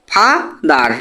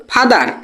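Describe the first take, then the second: First: father cut into ফা, pause, দার; split into syllables. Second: Said in the usual way. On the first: Shown as a demonstration. Teacher cutting a word for students, father syllable by syllable. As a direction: say father as two separate beats. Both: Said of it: "কেটে কেটে".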